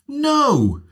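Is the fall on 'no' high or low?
high. It starts high and falls a long way.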